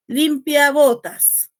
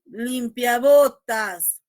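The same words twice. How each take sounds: First: "limpia" punched loud and slow, "botas" weaker; loud, slow, leaning on "limpia"; stress on LIMPIA. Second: "limpia botas" loud and slow, weight on "botas"; stress on BOTAS. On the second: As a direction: drag it out slowly and land hard on "botas". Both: Shown as a demonstration. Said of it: "atender al acento del último componente".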